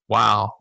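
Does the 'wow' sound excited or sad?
sad. The word sounds sad and sympathetic. The listener shares the speaker's sorrow. "So if something's super sad, they tell us something that's really depressing, we learn to just simply say"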